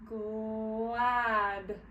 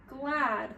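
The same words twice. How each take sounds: First: "glad" stretched long through the gl; slowed-down blend. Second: Said in the usual way. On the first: Shown as a demonstration. Teacher sounds out a tricky word, stretching "glad" slowly. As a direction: draw out "glad" slowly, holding each sound. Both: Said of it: "slow it down just a little bit".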